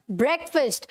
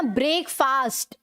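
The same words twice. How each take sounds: First: ब्रेकफास्ट said "BREK-fust"; short vowels in both halves of ब्रेकफास्ट; correct pronunciation. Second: ब्रेकफास्ट said "brake-faast"; long vowels in both halves of ब्रेकफास्ट; wrong pronunciation. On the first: Teacher modelling for students, ब्रेकफास्ट as "BREK-fust". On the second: Teacher showing students the error, ब्रेकफास्ट mispronounced as "brake-faast". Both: Shown as a demonstration. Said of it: "पूरा ये नहीं बोलना".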